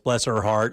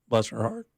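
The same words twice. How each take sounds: First: It sounds sincerely sympathetic. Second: It sounds mocking and judgmental.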